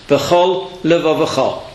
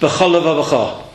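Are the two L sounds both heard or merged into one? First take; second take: both heard; merged. First: Both L sounds are heard with a slight break. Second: The two L sounds merge into one. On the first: The speaker calls it right. "So two lamads make a very slight break and carry on" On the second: The speaker calls it wrong. "I just said one lamad"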